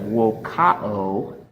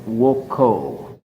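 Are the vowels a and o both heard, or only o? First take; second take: both; only o. First: Both the a and the o are pronounced. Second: Only the o is pronounced, without the a. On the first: The speaker calls it wrong. "the O swallows the A" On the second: The speaker calls it right. "the O swallows the A"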